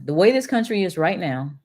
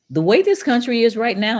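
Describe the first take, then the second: First: Said in the usual way. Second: Emphatic. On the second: Real, not acted. Emphatic start of closing point.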